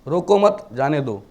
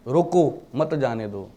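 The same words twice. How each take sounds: First: रोको मत said as one unit, pause, then जाने दो falling; pause after मत. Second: रोको alone, pause, then मत जाने दो run together; pause after रोको. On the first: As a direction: put the comma straight after मत. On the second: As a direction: put the comma straight after रोको. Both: Shown as a demonstration. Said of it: "coma आगे पीछे कर दोगे".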